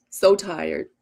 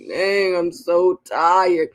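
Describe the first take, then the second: First: Said in the usual way. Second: Drawn-out tired groan. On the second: Retold or imitated. Waking up after ten hours, still drained, drawn out. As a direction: sound like you just woke up exhausted. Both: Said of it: "wake up and be like".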